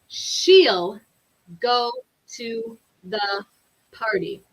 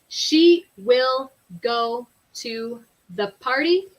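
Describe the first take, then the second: First: She will is shortened to one syllable. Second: She will is said as two full words. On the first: "it sounds a little more natural to say" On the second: "we can say"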